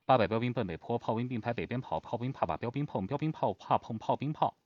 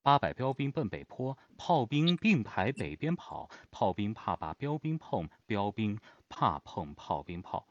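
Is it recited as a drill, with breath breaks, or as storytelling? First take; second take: drill; breath breaks. First: It is recited as an even, mechanical drill. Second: It is recited with varied breath breaks.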